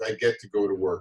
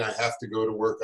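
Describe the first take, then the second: First: "get" leaned on, the glad version; grateful "I get to" with weight on "get"; stress on GET. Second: "have" leaned on, the dreary version; grudging "I have to" with weight on "have"; stress on HAVE. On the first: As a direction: lift the word "get" as a privilege. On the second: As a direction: weigh down the word "have" as a chore. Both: Shown as a demonstration. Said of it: "not saying".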